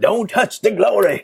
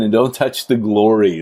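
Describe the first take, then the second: First: It is said in a Southern accent. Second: It is said in his ordinary accent.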